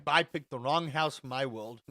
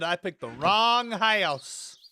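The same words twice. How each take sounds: First: Said in the usual way. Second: "wrong house" loud and drawn out; emphatic regret. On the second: Real, not acted. Streamer repeating his house regret, "wrong house" stretched emphatically.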